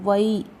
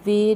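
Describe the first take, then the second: First: The syllable has the diphthong 'ai'. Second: The syllable has the plain vowel 'e'. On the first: The speaker calls it right. "वै आई की मात्रा" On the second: The speaker calls it wrong. "वे नहीं"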